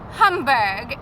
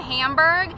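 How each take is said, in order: First: It is said with a German-style pronunciation. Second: It is said with an American-style pronunciation. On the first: "but I say Hamburg" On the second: "which I think would be like the American pronunciation"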